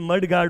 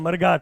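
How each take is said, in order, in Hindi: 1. शब्द के दोनों हिस्से पूरे बोले गए हैं। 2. शब्द को छोटा करके बोला गया है। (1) "मड गार्ड होता है" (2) "प्रोनाउंस करते हैं मरगाट। तो मरगाट कोई वर्ड नहीं है"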